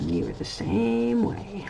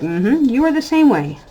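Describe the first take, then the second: First: Slow, softer, deliberate told-you-so; slow pointed verdict. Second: Higher, louder knowing mock tease; a playful gotcha to her grown son; teasing told-you-so. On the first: Pretend. Mom slowly driving the point home to her son. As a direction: lay it down slowly, savoring it. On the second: Mom teasing her future-parent son, higher and knowing. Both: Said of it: "and I'll be like".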